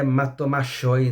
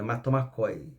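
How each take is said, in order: First: The 'ch' is said as a sh sound. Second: The 'ch' is said as a k sound. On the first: The speaker calls it wrong. "Não é matomachoi, não" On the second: The speaker calls it right. "é matomacoi, tá bom?"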